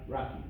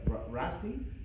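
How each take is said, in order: First: The middle consonant is a K sound. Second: The middle consonant is an S sound. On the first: This is how the speaker personally says it. "but I pronounce it as uh, Raki" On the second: Other people say it this way. "Some pronounce it as Rasi"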